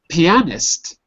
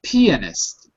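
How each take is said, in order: First: The stress is on the second syllable. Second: The stress is on the first syllable. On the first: The speaker calls it wrong. "not pianist. Careful" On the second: The speaker calls it right. "it's on the e"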